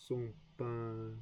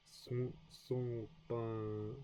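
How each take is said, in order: First: Said in the usual way. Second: Son pas drawn out very slowly, sound by sound; careful slow son pas; slow practice. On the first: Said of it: "repeats at normal speed". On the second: Shown as a demonstration. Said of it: "practicing pronunciation slowly".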